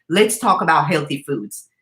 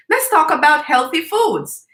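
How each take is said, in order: First: Said in the usual way. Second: Put-on higher, earnest little-girl voice; lightly voiced niece suggesting a topic; child's voice. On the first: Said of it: "saying to me". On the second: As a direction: say it like a proud five-year-old. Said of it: "And she said to me".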